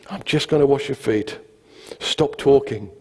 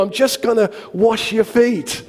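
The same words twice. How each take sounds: First: Calmed-down, understated firmness; dry, weary restatement; deadpan. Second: High, slow, exasperated insistence; hammed-up strained patience. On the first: Retold or imitated. Calmed second take, deadpan. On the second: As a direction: spell it out to an over-eager friend. Exasperated first take, comic.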